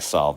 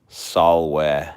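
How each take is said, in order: First: The v is said as a true v sound. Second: The v is said like a w sound. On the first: "I pronounce it V" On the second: "In Latin, V is more like a W"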